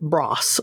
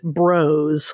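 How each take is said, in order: First: The name is pronounced the English way. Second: The name is pronounced the American way. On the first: "they always called it Bross. So I guess maybe that's how you say it in England" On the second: "for American folk like you and I, we would pronounce it Bros"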